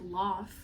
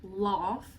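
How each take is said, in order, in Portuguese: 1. É dito com sotaque não americano. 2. É dito com sotaque não americano.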